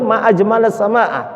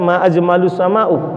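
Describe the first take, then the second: First: Both words end in an 'a' vowel. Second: Both words end in an 'u' vowel. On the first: It means 'how beautiful the sky is!' The speaker calls it right. "yang betul" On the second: It means 'what is the most beautiful thing in the sky?' The speaker calls it wrong.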